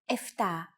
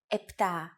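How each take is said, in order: First: The middle cluster is pronounced ft. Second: The middle cluster is pronounced pt. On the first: It is the casual everyday form. The speaker calls it wrong. "especially in casual conversation, Greeks also use εφτά" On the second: It is the standard form. The speaker calls it right. "yours are more correct"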